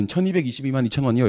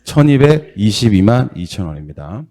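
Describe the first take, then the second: First: 천이백이십이만 read in one smooth go; quick fluent reading. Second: 천이백이십이만 said slowly and deliberately; careful model answer; slow, clear model reading. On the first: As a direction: rattle off 천이백이십이만 at once. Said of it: "이렇게 해야 됩니다". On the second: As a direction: spell out 천이백이십이만 slowly for students. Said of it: "얼마라고 이거". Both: Shown as a demonstration.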